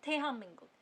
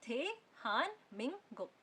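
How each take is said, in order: First: थेहाम मिंगुक run together with m; normal speech. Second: थे हान मिंग गुक syllable by syllable; slow dictation. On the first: Teacher shows normal speech, थेहाम मिंगुक run together. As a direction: join हाम to मिंगुक on one m. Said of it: "अगर आप normally बोलोगे". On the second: Teacher dictating slowly to someone, syllable by syllable. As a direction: separate each syllable, keeping n in हान. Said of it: "dictate कर रहे हो किसी को या धीरे धीरे". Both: Shown as a demonstration.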